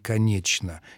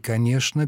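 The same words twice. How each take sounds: First: The middle consonant sounds like 'ch'. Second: The middle consonant sounds like 'sh'. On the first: This is how Petersburgers said it. "петербуржцы говорили «конечно»" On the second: This is how Muscovites said it. "Москвичи так не говорили. Они говорили «конечно»"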